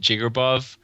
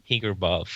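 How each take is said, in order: First: The name begins with a J sound. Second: The name begins with an H sound. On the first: This is how the owner of the name says it. "I pronounce it Jigerbov" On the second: The name is read as if it were Spanish. "because the J sounds like an H in Spanish"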